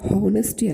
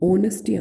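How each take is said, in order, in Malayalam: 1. ഈ വാക്ക് h ശബ്ദത്തോടെയാണ് തുടങ്ങുന്നത്. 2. ഈ വാക്ക് സ്വരാക്ഷര ശബ്ദത്തോടെയാണ് തുടങ്ങുന്നത്. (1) "ഇത് ഹോണസ്റ്റി അല്ല" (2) "എച്ച് എന്നത് സൈലന്റ് ആണ്"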